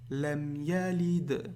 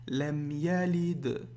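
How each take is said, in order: The two takes are said the same way.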